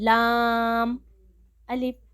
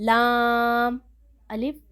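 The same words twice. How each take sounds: The two takes are said the same way.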